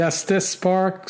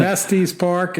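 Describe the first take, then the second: First: Estes said ESS-tiss; corrected pronunciation. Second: Estes said ESS-teez; old mistaken pronunciation. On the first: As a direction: end Estes on a short 'iss'. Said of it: "It's actually". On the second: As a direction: end Estes on 'eez'. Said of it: "So I've been saying". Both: Shown as a demonstration.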